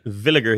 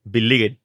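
First: The word begins with a V sound. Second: The word begins with a B sound. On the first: This is the usual way to say the name. "instead of saying Villiger" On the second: This imitates how a friend says the name. "he says Billiger"

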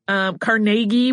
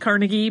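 First: The middle vowel has an 'ay' sound. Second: The middle vowel lacks the 'ay' sound. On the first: "with more of an A sound" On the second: "said Carnegie pretty frequently"

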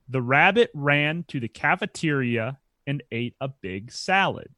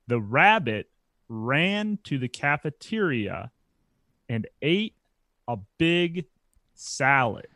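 First: It is said at a faster pace. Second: It is said at a slower pace.

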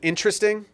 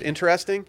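First: The word is said with three syllables. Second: The word is said with four syllables. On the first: "why was that 3" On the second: "instead of 4"

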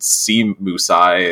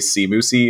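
First: The name ends with a separate 'eye' sound. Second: The name ends with a short 'ee' sound. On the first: This was the original owner's pronunciation. "that was how I pronounced it for a long time" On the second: This is how other people say it. "people just say sea moosey"

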